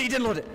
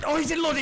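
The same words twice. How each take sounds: First: High, stress on didn't; excited disbelief. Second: High, loud, stress on he; shocked he didn't load it; excited disbelief. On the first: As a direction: still shocked, landing on didn't. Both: Real, not acted. Disbelief, repeated line.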